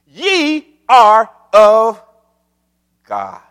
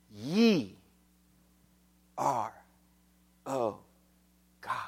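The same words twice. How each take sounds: First: Slow, separate beats on "Ye are of God"; emphatic declaration. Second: Low, soft words with long pauses; slow, solemn, word-by-word murmur; hushed reverence. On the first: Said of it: "He is very emphatic". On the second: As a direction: let each word fall quietly on its own. Same verse repeated softly, slowly. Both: Acted.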